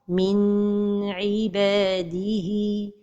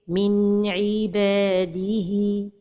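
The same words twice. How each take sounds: First: The n sound is held too long. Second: The n flows smoothly into the next sound. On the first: The speaker calls it wrong. "La deuxième erreur, c'est de prolonger son temps" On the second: The speaker calls it right. "la prononciation correcte"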